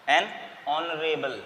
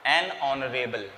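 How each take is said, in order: First: Slow "एन ऑनरेबल" with silent h; an honourable, h silent. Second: Slow "एन ऑनरेबल", no h sound; "ऑनरेबल" begins on the vowel; an honourable, h silent. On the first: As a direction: say "एन ऑनरेबल" dropping the h, drawn out. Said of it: "H silent रहता है इसमें". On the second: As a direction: stretch "एन ऑनरेबल" and keep the h silent. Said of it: "तो क्या होगा". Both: Shown as a demonstration.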